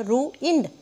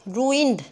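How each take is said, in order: First: "ruined" broken as ru, ind; split syllables. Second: Said in the usual way. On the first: Shown as a demonstration. Teacher shows students two syllables, "ruined" split. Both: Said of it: "इसमें दो हैं".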